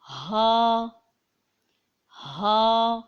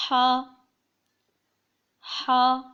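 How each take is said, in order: First: ہا said long with a heavy, full h; heavy haa. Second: ہا as a thin breath from mid-throat; thin mid-throat haa. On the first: Teacher contrasting the other h, heavy ہا. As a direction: give ہا a weighty breath, held out. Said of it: "بھاری آواز میں پڑھا جائے گا". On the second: Teacher demonstrating the letter, thin throaty ہا. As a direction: squeeze a fine h from the middle of the throat. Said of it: "بہت ہی باریک اور حلق کے بیچ سے". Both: Shown as a demonstration.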